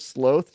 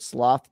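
First: "sloth" with a long o, as in both; animal pronunciation. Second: "sloth" with an open ah vowel; short open-vowel "sloth"; vice pronunciation. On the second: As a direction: say "sloth" to rhyme with cloth. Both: Shown as a demonstration. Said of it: "different pronunciations for the vice versus the animal".

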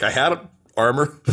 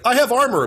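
First: Smaller, mildly raised mock-heroic line; same hero, now with wrecked armor; half-hearted echo of a battle boast; deflated boast. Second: High, loud mock-heroic cry; hammed-up triumphant announcement; proud battle boast. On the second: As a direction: declare it like a hero mid-fight. Acting out the fighter's armor boast.

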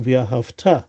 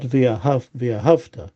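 First: V'ahavta with the beat landing on the last syllable; stress on final syllable. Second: V'ahavta with the beat before the last syllable; wrong early stress. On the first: Teacher showing how it should be pronounced, last syllable stressed in V'ahavta. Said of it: "the emphasis is on the future syllable". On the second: Teacher showing what not to say, middle HAV stressed in V'ahavta. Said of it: "not the emphasis on the". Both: Shown as a demonstration.

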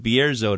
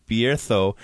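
First: Bierzo with a buzzing English z, "bee-AIR-zo"; pronounced as spelled. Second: Bierzo with a th for the z, "bee-AIR-tho"; Castilian pronunciation. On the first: Host reading it as spelled, z sound in Bierzo. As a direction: say Bierzo with a plain z. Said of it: "it's spelled Bierzo to me". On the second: Host quoting how the word is said, Castilian th in Bierzo. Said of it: "when I say". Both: Shown as a demonstration.

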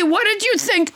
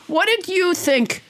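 First: Said in the usual way. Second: "did" leaned on, slower and drawn out; slow down and press "did"; stress on did. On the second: Shown as a demonstration. Host re-asking Tony, pressing the word did.

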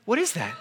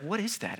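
First: Said in the usual way. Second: Hushed, baffled question; soft puzzled murmur. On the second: Retold or imitated. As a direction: ask it under your breath, puzzled. Discovering something odd in sleeve.

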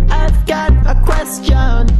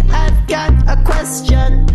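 The two takes are said the same way.

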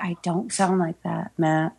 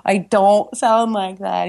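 First: Said in the usual way. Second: Slow, drawn-out Michigan vowels in protest; retold objection with a stretched Michigan "don't"; exaggerated Michigan accent. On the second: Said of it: "you're from Michigan".

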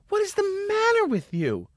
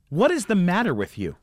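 First: Very high screechy imitation of a scolding lady; mock hysterical indignation in falsetto; shrill outraged woman. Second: Acted indignant question, restrained; retold scolding, only slightly raised; mildly indignant woman. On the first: Same scolding, escalated. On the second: Retold angry lady confronts him.

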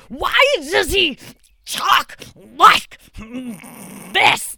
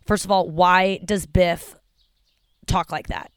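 First: Much higher, very slow, strained mock Biff with a cry in it; hammed-up whiny movie-bully voice. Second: Said in the usual way. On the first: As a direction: stretch the words out like a bully straining.

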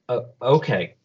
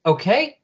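First: Hesitant, falling acceptance; sheepish assent. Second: High, sharply rising check; insistent question. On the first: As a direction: give in meekly after a small hesitation. He sheepishly gives in. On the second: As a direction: push it upward, demanding agreement. She insists after rebuffing him. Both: Acted.

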